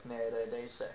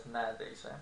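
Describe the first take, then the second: First: Neredeyse said in full as ne-re-dey-se, every vowel sounded; spelled pronunciation. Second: Neredeyse said as nerdeyse, second e dropped; casual pronunciation. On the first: Teacher showing how the word is written, all four syllables. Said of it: "it's spelled as neredeyse". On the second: Teacher showing the everyday spoken form, second e dropped. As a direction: clip neredeyse to three syllables, nerdeyse. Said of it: "we usually pronounce it as". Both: Shown as a demonstration.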